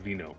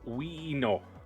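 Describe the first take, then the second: First: The middle consonant is a V sound. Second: The middle consonant is a W sound.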